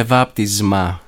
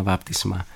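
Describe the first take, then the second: First: Βάπτισμα pronounced "vaptizma", with a voiced z; sigma as zeta. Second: Βάπτισμα pronounced "vaptisma", with a voiceless s; softer βάπτισμα with plain s before m; sigma as S. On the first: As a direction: buzz the σ in βάπτισμα like a ζ. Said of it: "να ακούγεται σαν ζήτα". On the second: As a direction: keep the σ in βάπτισμα a hissing s. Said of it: "όχι σαν σίγμα". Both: Shown as a demonstration.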